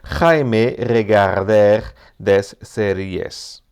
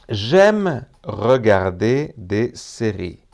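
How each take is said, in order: First: It is pronounced with Spanish-like sounds. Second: It is pronounced with French sounds. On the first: The speaker calls it wrong. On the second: The speaker calls it right.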